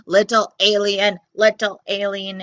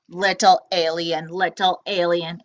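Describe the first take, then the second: First: Robot squeak. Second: Low looming robot sing-song; robot calling. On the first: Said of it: "it squeaked". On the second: Robot coaxing the hiding alien, low and menacing. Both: Acted.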